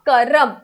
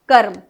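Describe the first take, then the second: First: A short vowel is inserted between r and m. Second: The r joins the m with no vowel. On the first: The speaker calls it wrong. "उच्चारण उनका अशुद्ध है" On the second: The speaker calls it right. "ये हो जाता है कर्म"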